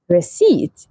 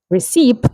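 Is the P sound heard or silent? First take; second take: silent; heard. First: The P sound is silent. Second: The P sound is pronounced. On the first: The speaker calls it right. "So the P is silent" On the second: The speaker calls it wrong. "We don't say"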